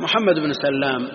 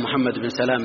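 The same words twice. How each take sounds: First: سلام said with a long doubled l, "Sallam"; doubled lam. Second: سلام said with one light l, "Salaam"; light single lam. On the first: Teacher gives the correct name of Bukhari's shaykh, سلام with doubled lam. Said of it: "الصواب بالتشديد". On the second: Teacher lists the exceptional names, سلام with a single light lam. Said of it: "بالتخفيف". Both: Shown as a demonstration.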